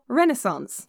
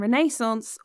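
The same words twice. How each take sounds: First: The word is said the American way. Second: The word is said in a non-American way. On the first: "or Renaissance, as you Americans do" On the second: "it's pronounced American Renaissance"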